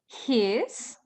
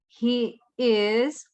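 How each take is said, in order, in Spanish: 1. El verbo se contrae con el pronombre. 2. El verbo se dice como una palabra separada. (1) "en la forma corta o contractor form" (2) "La forma completa o the long form"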